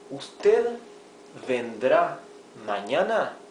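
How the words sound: The voice rises at the end like a question. It asks whether the person will come tomorrow. "another question"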